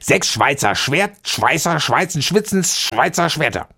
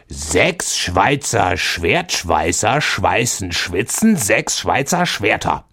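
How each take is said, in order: First: It is said fast. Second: It is said slowly.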